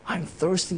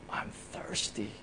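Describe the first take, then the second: First: Said in the usual way. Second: Faint breathy whisper, almost no voice; whispered cry. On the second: Retold or imitated. Preacher voicing Jesus on the cross, a faint whisper. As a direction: whisper it like a dying man's last plea. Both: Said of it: "And he cried out".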